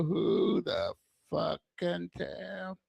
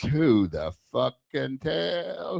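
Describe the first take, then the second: First: Softer, slow, slurred repeat; quiet slurred echo. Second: Said in the usual way. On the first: Shown as a demonstration. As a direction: mumble it again slowly, softer. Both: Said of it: "Is he slurring his words?".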